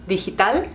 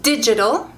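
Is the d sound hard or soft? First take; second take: soft; hard. First: The d is soft and weak. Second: The d is a hard, firm stop. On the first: "in Spanish is digital" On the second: "in English"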